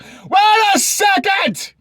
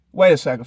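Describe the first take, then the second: First: Shouted exclamation. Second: Said in the usual way. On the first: Acted. Exaggerated outraged second take.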